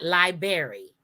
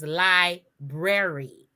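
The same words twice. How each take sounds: First: Library as LIE-berry; R dropped. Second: Library slowly as LIE-brair-ee; correct pronunciation. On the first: Cohost showing what not to say, library as LIE-berry. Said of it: "We just drop off the R". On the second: Cohost teaching listeners, library with a clear BR. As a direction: split library carefully and sound the BR. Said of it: "So it is library". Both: Shown as a demonstration.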